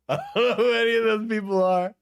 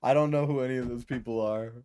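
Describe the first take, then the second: First: Laughing through I don't know who any of those people are, a touch higher; laughing repeat. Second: Said in the usual way. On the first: Real, not acted. Streamer laughing at the unknown award guests. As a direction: laugh it out in disbelief.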